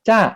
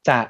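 First: The syllable is said with a falling tone. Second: The syllable is said with a low tone. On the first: "เติมไม้โท" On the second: "คำว่าจะเนี่ยมันอยู่ในตำแหน่งที่เป็นเสียงเอกอยู่แล้ว"

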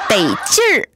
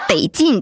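First: The word ends with an r-colored sound. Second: The word ends without an r-colored sound. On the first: The speaker calls it right. "你后面应该再打一个儿，得劲儿，那叫得劲儿" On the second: The speaker calls it wrong. "不是得劲"

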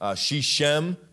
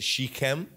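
First: The middle consonant is a softer, non-k sound. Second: The middle consonant is a hard k sound. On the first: It follows an English speaker's habit. "as an English guy" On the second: It follows the name's original culture. "because of its culture, where it comes from. There's a k in there"

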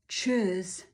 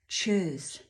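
The two takes are said the same way.

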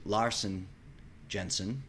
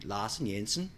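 First: It is said with an American accent. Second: It is said with a Danish accent.

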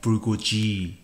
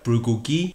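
First: The last g is soft, as in giraffe. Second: The last g is hard, as in golden. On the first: The speaker calls it wrong. "not bulgogi" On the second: The speaker calls it right. "this word should sound like bulgogi"

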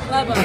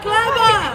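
First: It is said at normal volume. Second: It is said very loudly.

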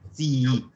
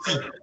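First: The ending is said with two i sounds. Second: The ending is said with a single i sound. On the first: The speaker calls it right. "Pronunciamos las dos, digo zii" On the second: The speaker calls it wrong. "no digo zii"

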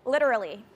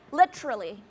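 First: It is said in an American accent. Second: It is said in a British accent.

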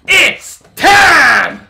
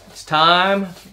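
First: It is said with high energy. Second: It is said with low energy.

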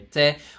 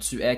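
First: It is contracted into one syllable, t'es. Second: Two full syllables are said, tu and es. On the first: "qui devient t'es" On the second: "les contractions comme tu es"

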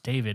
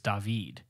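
First: The name is said with an English pronunciation. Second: The name is said with a Spanish pronunciation. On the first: The speaker calls it wrong. "my first name isn't pronounced David" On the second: The speaker calls it right. "here in Spain ... it's David"

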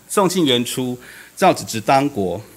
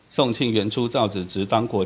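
First: It is read slowly with pauses between phrases. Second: It is read in one unbroken run without pauses. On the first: The sentence becomes understandable. The speaker calls it right. "我只要把这些词汇放慢一点" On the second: It sounds like chanting scripture. The speaker calls it wrong. "如果这样你念的话，你就会念成"

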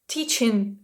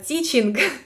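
First: The ending is a nasal ng with no g. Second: The ending has an audible hard g sound. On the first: The speaker calls it right. "Але ні, ми кажемо" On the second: The speaker calls it wrong. "Багато хто каже"

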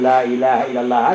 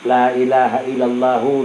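First: The last word stops on a silent final consonant. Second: The last word ends with an added 'hu' vowel. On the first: The recitation pauses at this point. "bacaan bil wakfi tak ayana sekun" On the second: The recitation continues on without stopping. "hu. Itu bacaan ni bil wasli"

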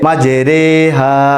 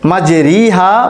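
First: The vowel after r sounds like 'e'. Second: The vowel after r sounds like 'i'. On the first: The speaker calls it right. "এখানে আমাদেরকে উচ্চারণ করতে হবে মাঝে রে হা" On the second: The speaker calls it wrong. "মাঝে রি হা পড়া যাবে না"

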